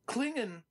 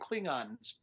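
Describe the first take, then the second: First: The vowel in the second syllable is short. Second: The vowel in the second syllable is drawn out. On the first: This is the form the creator intended. The speaker calls it right. "how Roddenberry wanted it pronounced" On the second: This is the form people drifted into using. The speaker calls it wrong. "elongating the A and saying Klingons"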